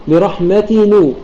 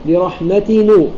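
No difference in how they are said.

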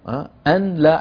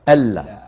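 First: The n is pronounced separately before la. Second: The n merges into the l, no n heard. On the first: The speaker calls it wrong. "العرب لا تقول أن لا" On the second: The speaker calls it right. "ماذا يقولون؟ ألا"

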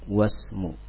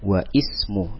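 First: The words join with no 'i' sound between them. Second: An 'i' sound is pronounced after 'wa'. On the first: The speaker calls it right. "Hamzah wasalnya tidak dibaca" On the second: The speaker calls it wrong. "bukan dibaca dengan wa ismu, itu salah"

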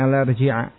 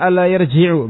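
First: The verb ends with a final a vowel. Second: The verb ends with a final u vowel. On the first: The verb is in the subjunctive mood. The speaker calls it wrong. "bukan an la yarji'a" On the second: The verb is in the indicative mood. The speaker calls it right. "dengan merafakan yarji'"

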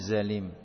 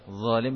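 First: It begins with a buzzing 'z' sound. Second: It begins with a soft 'dh' sound. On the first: The speaker calls it wrong. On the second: The speaker calls it right.

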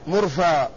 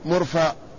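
First: The word ends on a plain vowel. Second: The word ends with a glottal stop. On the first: "وإن شئت قصرت" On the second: "إن شئت همسته"

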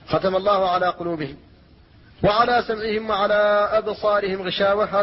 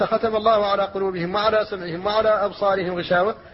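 First: There is a pause after قلوبهم. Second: The words run on with no pause after قلوبهم. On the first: Hearing belongs with the sealing of the hearts. "هذا وقف كاف" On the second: Hearing may belong with either part of the verse. "لو وصلت فقلت"

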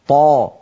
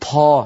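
First: The consonant is released without a puff of breath. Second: The consonant is followed by a puff of breath. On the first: The speaker calls it right. "فالطاء الفصيحة طاء مجهورة شديدة هكذا طا طا" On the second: The speaker calls it wrong. "ولا يصح أن نقول طا طا. هل سمعتم النفس الذي بعد الطاء؟"

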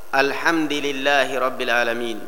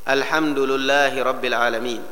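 First: The dal and the lam both take an i vowel. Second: The dal and the lam both take a u vowel. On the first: The dal's vowel follows the vowel after it. "dalnya di kasrah karena mengikuti lam" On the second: The lam's vowel follows the vowel before it. "lamnya mengikuti dal, karena dhammah sebelumnya dalnya maka lamnya pun diikutkan harakatnya"

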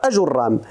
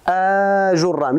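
First: The opening vowel is short and clipped. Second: The opening vowel is drawn out long. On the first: The speaker calls it right. "غير ممدودة، أجرام مباشرة" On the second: The speaker calls it wrong. "يعني ما نقولوش أجرام، لا غير ممدودة"

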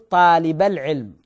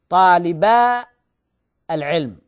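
First: The vowel before al-ilm is short. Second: The vowel before al-ilm is held long. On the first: The speaker calls it right. "والصحيح نقول طالب العلم" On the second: The speaker calls it wrong. "فنقول طالبا العلم"

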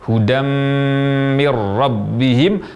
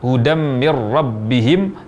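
First: The nasal hum on the m is long. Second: The nasal hum on the m is short. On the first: The speaker calls it right. "Seharusnya diucapkan dengan gunnah yang lama" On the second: The speaker calls it wrong. "tanpa gunnah yang lama"

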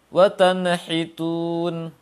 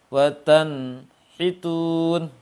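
First: The nun is bounced with an echo. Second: The nun is cut off from the ha. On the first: "Terpantul, yang terpantulkan seperti apa?" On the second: "Atau terpisah"

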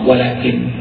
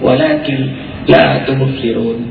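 First: The word walakin ends with a full stop. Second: The word walakin runs straight into the next word. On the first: "Kalau dibaca potong" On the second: "kalau disambung"

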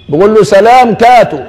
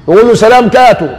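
No difference in how they are said.

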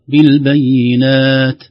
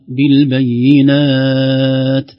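First: The final long vowel is held for four counts. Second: The final long vowel is held for six counts. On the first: "أو أربع" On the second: "أو ست"

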